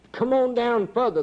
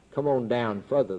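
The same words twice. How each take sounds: First: High ringing call of the Lord. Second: Lower, hushed call; the Lord calling, lowered. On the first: Preacher voicing the Lord calling him down, high call. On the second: Preacher voicing the Lord's last call, low and hushed. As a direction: bring the call down low as he sinks. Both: Retold or imitated.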